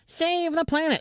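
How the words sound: It is said in a high-pitched put-on voice. The speaker calls it right. "There it is"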